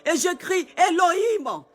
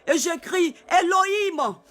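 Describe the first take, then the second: No difference in how they are said.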